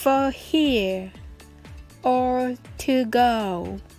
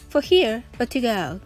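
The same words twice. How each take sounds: First: The phrase is spoken at a slow pace. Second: The phrase is spoken at a fast pace. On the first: "please say it slowly. はじめはゆっくりです。" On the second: "please make it faster"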